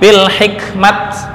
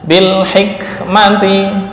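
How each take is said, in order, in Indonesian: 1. Kata ini berakhir dengan bunyi t yang terpotong. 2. Kata ini berakhir dengan suku kata -ti penuh. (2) "jika akhirnya berupa hak taknis"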